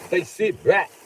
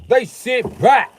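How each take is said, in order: First: Said in the usual way. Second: Much higher and louder, slow; louder, slower mock preacher. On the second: Shown as a demonstration. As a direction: drag it out, building up.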